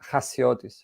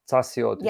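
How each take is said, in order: First: The name is said with its Greek pronunciation. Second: The name starts with a ts sound. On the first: This is how it is said in the speaker's own language. "in Greek, you you say" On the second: This follows the written form for English speakers. "the sort of right way to pronounce it in English would be Tsa"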